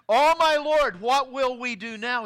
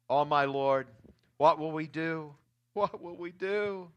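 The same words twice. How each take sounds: First: High, loud desperate cry of the servant; frightened servant crying out to Elisha; panicked cry. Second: Lower, fading despairing plea; subdued fearful plea. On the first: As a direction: cry out in alarm to the prophet. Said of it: "he cried out to Elisha". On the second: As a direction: let the cry sink into hopeless murmur. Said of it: "He cried out to Elisha". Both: Retold or imitated.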